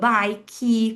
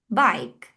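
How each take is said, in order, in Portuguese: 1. Ela é falada com sotaque do português brasileiro. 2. Ela é falada com sotaque inglês. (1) "é assim que a gente pronuncia uma palavra em inglês aqui" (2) "como a teacher pronuncia diferente essas palavras"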